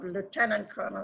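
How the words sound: It is said the American way.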